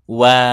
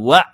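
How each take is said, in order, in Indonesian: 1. Bunyi tenggorokan itu mengalir halus. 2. Bunyi tenggorokan itu berhenti mendadak dan rapat. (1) "wa'lamu wa" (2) "bukan wa. Kalau wa itu kurang ngalir"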